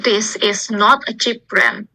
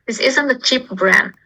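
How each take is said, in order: First: It is said slowly with 'is not' in full. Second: It is said faster with 'is not' contracted.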